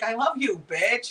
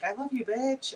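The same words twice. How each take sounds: First: It is said in a hostile, aggressive tone. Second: It is said in a warm, affectionate tone.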